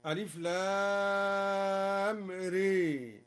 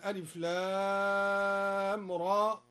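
First: "ري" tilted to ree, after a long held "لام"; very slow letter recitation, "ري" instead of raa; imala on the ra. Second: Said in the usual way. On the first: Shown as a demonstration. Teacher showing al-Duri's reading, "ري" with imala. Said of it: "قرأ الدوري بإمالة الراء هكذا". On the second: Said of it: "قرأ الدوري بإمالة الراء".

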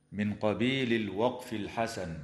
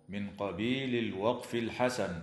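Both takes have the same delivery.

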